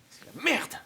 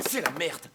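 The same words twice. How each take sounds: First: High outburst on MERDE; exasperated curse. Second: Said in the usual way. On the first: Acted. Trapped prisoner cursing the mess, exasperated outburst on MERDE. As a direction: curse it out, MERDE shooting up in pitch.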